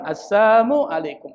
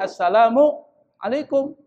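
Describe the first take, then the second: First: The greeting drops the syllable 'la'. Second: The greeting includes the syllable 'la'. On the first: It wishes death upon the listener. "La-nya hilang" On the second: It wishes peace upon the listener. "kita bilang assalamu alaikum"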